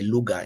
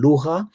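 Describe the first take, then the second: First: The middle consonant is a plain hard g. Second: The middle consonant is a throaty fricative. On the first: "a lot of Swahili speakers will simply say luga" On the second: "some sounds from Arabic like re in lugha"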